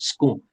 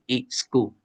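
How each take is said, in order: First: It starts directly with the 's' sound. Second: An extra vowel comes before the 's' sound. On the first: "in British English or American English, we have the word school" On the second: "can uh, be broken into each school"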